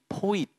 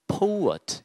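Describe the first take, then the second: First: The first vowel is a plain, flat 'o'. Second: The first vowel glides like 'oh-oo'. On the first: The speaker calls it wrong. "poet이라고 발음하지 말고요" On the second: The speaker calls it right. "오우엇, poet 이런 식으로 발음을 해주시면 좋겠습니다"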